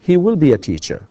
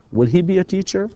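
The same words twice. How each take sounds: First: He will be a teacher, will stressed, falling; teacher modelling the statement; model statement. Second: Will he be a teacher rising high on he; teacher modelling the question; question rise. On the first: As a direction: say it as a plain statement. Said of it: "statement drill". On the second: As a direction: swing it up as a question. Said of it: "question drill". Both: Shown as a demonstration.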